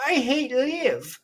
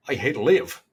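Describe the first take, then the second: First: Put-on high, slow Irish-accented whine; slow mock Irish accent. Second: Put-on Irish accent. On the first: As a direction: mimic Rory's Irish lilt, drawn out. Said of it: "however he says it in his Irish accent". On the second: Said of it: "that's not close enough".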